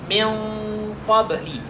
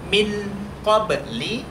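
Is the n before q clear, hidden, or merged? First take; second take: hidden; clear. First: The n is nasalized and half hidden. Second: The n is pronounced fully and clearly. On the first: The speaker calls it right. "tapi pertengahannya. Dan ini tetap dibaca gunnah" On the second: The speaker calls it wrong. "tidak dibaca min qabli idhar"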